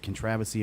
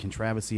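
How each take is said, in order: First: The word is said with a British pronunciation. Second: The word is said with a British pronunciation.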